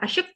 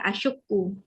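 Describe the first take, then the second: First: The word is said quickly with its ending clipped. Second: The word is said fully with its ending intact. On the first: "cepat dia ngomong" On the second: "Padahal dia maksudnya apa?"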